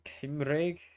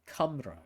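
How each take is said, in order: First: The word sounds like 'Kimreg'. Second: The word sounds like 'Cumrag'. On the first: The speaker calls it right. "was how I pronounce it" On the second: The speaker calls it wrong. "as some might pronounce it"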